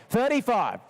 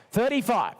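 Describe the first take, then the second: No difference in how they are said.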